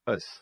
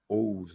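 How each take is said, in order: First: The ending is said as a short 'us'. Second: The ending is said with an 'oh' sound. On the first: The speaker calls it right. "vão ter o som do A. Então você vai fazer us" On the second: The speaker calls it wrong. "certamente o som aqui não é OUS, não tem de tom de OU"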